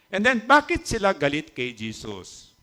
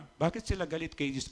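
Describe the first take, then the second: First: Said in the usual way. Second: The same question again, much softer; a quieter echo of the question; softer repeat. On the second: Acted. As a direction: drop the volume and ask again.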